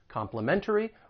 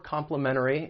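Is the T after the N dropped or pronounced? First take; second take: pronounced; dropped. First: The T after the N is clearly pronounced. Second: The T after the N is dropped.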